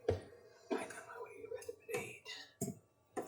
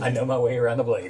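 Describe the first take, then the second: First: It is said in a put-on character voice. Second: It is said in the speaker's normal voice.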